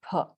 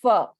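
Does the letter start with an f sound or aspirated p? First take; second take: aspirated p; f sound. First: It begins with a p plus breath. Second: It begins with a lip-teeth f sound. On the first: The speaker calls it right. "it is always pronounced as pha" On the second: The speaker calls it wrong. "is not uh, pronounced as fa"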